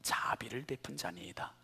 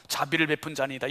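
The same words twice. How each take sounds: First: Whispered, rising at the end; lawyer's reluctant answer, whispered; hushed quote. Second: 자비를 stressed firmly, rest even; stressed reply. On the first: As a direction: breathe the lawyer's answer softly. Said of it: "그렇게 얘기하지 않았어요". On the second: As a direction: lean on 자비를 to dodge the word. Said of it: "사마리아 사람이라는 말조차도 입에 올리지 않고". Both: Retold or imitated.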